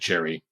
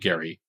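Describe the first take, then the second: First: The name starts with a J sound. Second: The name starts with a hard G sound. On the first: This is how people say it today. "We now pronounce it Jerry" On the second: This is how the man himself said it. "He pronounced his name Gary"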